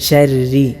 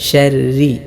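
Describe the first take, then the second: Both takes have the same delivery.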